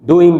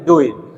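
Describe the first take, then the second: First: The final g sound is clearly pronounced. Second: The final g sound is dropped. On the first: The speaker calls it wrong. "नहीं" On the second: The speaker calls it right. "जी को मैं remove कर दूंगा"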